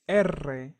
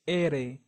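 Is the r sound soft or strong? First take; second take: strong; soft. First: The r is a strong, rolled trill. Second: The r is a single soft tap. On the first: "The stronger is R" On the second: "the softer is R"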